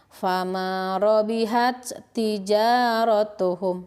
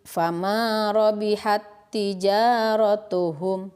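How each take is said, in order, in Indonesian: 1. Huruf t yang pertama dilepas dengan desisan napas. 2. Dua bunyi t menyatu jadi satu t yang ditasydid. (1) "Pengucapan yang kurang tepat seperti ini. ... Jadi itu masih ada hamesnya" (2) "Cara membacanya seperti ditasydidkan langsung ke huruf yang kedua"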